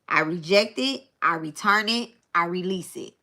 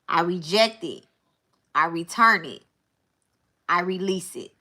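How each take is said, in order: First: It is said at a normal pace. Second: It is said more slowly.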